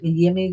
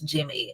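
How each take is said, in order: First: The name begins with a Y sound. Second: The name begins with a J sound. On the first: The speaker calls it wrong. "it's not Yimi Garcia" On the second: The speaker calls it right. "it's Jimmy"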